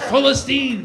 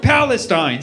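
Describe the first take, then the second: First: The name is said with an Arabic pronunciation. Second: The name is said with an English pronunciation. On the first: The name feels free. The speaker calls it right. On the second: The name feels stale. The speaker calls it wrong.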